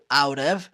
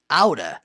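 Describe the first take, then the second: First: Both words are said fully and separately. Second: The words blend into one quick reduced form. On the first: "pode ser pronunciado out of" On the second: "é uma contração de out of. Então, out of, falando rápido"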